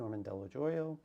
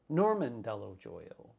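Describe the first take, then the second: First: The surname is pronounced in a usual way. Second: The surname is pronounced in an odd way. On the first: The speaker calls it right. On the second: The speaker calls it wrong.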